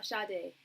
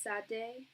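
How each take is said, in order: First: "[name]" said SHAH-day; singer's pronunciation. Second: "Sad Day" with the A of "sad", rising; name said as SAD DAY. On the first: Reader corrects herself to the singer's way, "[name]" as SHAH-day. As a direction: say "[name]" with an SH and open AH. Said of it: "Oh, exactly like her". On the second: Reader queries a viewer's name, pronounced as SAD DAY. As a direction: say "Sad Day" as two English words, querying it. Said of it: "it's not pronounced like the singer's name". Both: Shown as a demonstration.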